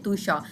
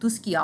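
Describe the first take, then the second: First: The middle is said as a soft 'sh' sound. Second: The middle is said as 'sk' with a 'k'. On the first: This is the Italian reading of the name. The speaker calls it right. "Italian में तुषा" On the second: This is the Latin reading of the name. The speaker calls it wrong. "अगर हम लोगों ने इसे लैटिन में पढ़ना है"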